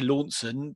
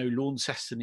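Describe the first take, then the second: First: The name is pronounced the way Cornwall says it. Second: The name is pronounced the way Tasmania says it. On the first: This is how the English town is said. "We would be used to Launceston" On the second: This is how the Tasmanian town is said. "but no, Launceston it said"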